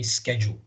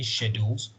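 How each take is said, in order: First: It is said with an American pronunciation. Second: It is said with a British pronunciation. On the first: "American accent, they say schedule" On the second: "British accents, they say schedules"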